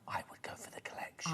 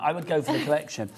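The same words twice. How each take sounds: First: It is said in a whisper. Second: It is said in a normal voice.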